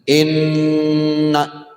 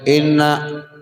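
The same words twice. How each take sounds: First: The nasal nn sound is held long. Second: The nasal nn sound is cut short. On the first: The speaker calls it right. "tahan dulu situ" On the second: The speaker calls it wrong. "nggak boleh langsung cepat-cepat"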